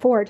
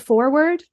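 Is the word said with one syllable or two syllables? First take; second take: one syllable; two syllables. First: It is said with one syllable, like ford. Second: It is said with two syllables. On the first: The speaker calls it wrong. "like an F-O-R-D" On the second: The speaker calls it right. "it was actually called a"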